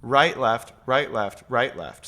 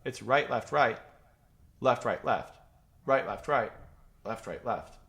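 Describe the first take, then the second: First: Each "right" in right, left, right, left leaned on, in pairs; right, left, each pair marked with a beat on right; grouped in twos. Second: Right, left, right, left, right, left with a beat on every third word; grouped in threes. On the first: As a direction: count it out in twos. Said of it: "There's also a two aspect". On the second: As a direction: count it out in threes. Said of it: "it's groups of three". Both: Shown as a demonstration.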